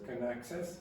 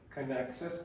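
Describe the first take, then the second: First: The word can has a short, weak vowel. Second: The same.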